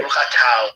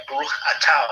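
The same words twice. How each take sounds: First: "Atau" said ah-TOW, with a clear "au" at the end; German Jewish Hebrew pronunciation. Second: Put-on old German Jewish reading of "Baruch Atau", with the last vowel as "au"; German Jewish Hebrew pronunciation. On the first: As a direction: demonstrate the transliterated "Baruch Atau" with an "ow" ending. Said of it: "A T A U". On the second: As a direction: say "Atau" ending in an "ow" sound, ah-TOW. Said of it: "and it's written A T A U". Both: Shown as a demonstration.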